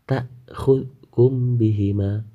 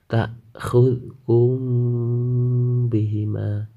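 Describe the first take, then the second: First: The m before b is pronounced clearly. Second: The m before b is blurred and nasal. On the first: The speaker calls it wrong. "tidak boleh dibaca" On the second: The speaker calls it right. "harus ada samar di antara mim dengan ba"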